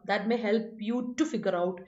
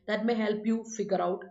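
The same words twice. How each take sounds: First: Slow, with the word "to" clearly stressed. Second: Slow, leaving out "to", with the stress on "may"; without to. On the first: Teacher dictating the to-infinitive option, slow with "to" stressed. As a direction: say "to figure out" very slowly, stressing "to". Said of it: "To infinitive കൊടുക്കാം". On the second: Teacher dictating the bare infinitive option, slow with "may" stressed. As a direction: say "help you figure out" very slowly with no "to". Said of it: "bare infinitive കൊടുക്കാം". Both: Shown as a demonstration.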